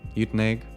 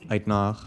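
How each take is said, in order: First: The name is said with an English pronunciation. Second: The name is said with an Afrikaans pronunciation. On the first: "Uitenhage is the English pronunciation" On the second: "Uitnag is the way one says it if you're Afrikaans"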